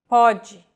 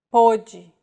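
First: Pode with an open, stressed O. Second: Pôde with a closed, stressed O. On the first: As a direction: say Pode with O as in "thought". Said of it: "may or may not refer to the vowel sound". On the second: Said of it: "circumflexes mark when vowels are pronounced with closed pronunciation". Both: Shown as a demonstration.

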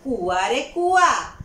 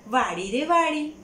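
First: Slow, loud sing-song call; mock-call to the well, drawn out. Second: Slow, loud sing-song call. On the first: Farm owner mockingly calls to the well, slow loud call. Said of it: "અને એમણે બૂમ પાડી". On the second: Acted. Man calls to the garden for permission, slow loud call. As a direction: call to the garden itself, drawn out. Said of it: "એમણે બૂમ પાડી".

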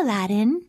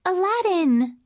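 First: Said in the usual way. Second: Aladdin! called out high and pleased; delighted call. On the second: Shown as a demonstration. Princess spotting Aladdin, excited call. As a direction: call his name in happy surprise.

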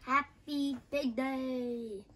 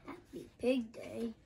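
First: Emphatic correction. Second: Said in the usual way. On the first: Acted. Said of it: "Happy Pig Day. (correction)".

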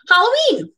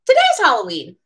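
First: Excited announcement. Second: Said in the usual way. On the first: A narrator's reading. Reading the story to viewers, "Halloween" said high and thrilled. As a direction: sing out "Halloween" like the best day of the year. Narrator announces favourite day.

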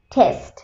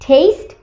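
First: "টেস্ট" as "tehst", lower; short e vowel. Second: "টেস্ট" as "tayst", rising; long ei vowel. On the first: Teacher summing up the difference, "টেস্ট" as a lower "tehst". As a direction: say "টেস্ট" like "test", short "eh", pitched down. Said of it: "এখানে এ". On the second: Teacher summing up the difference, "টেস্ট" as a rising "tayst". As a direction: say "টেস্ট" like "taste", with the "ey" glide. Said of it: "এখানে এই". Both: Shown as a demonstration.

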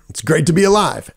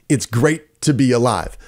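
First: Lin's tagline delivery. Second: Said in the usual way. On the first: Retold or imitated. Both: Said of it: "that was one of his taglines".

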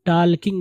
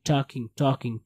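First: "talking" with the l sounded, taal-king; wrong pronunciation. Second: "talking" with silent l, taw-king; correct pronunciation. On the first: Teacher shows what not to read, "talking" with an l. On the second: Teacher models the right reading, "talking" without the l. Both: Shown as a demonstration. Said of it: "इसको talking नहीं पढ़ेंगे".

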